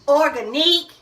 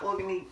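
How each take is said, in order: First: The word ends with an 'eek' sound. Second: The word ends with an 'ick' sound. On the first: The speaker calls it right. "We say organique" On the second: The speaker calls it wrong. "it's not organic"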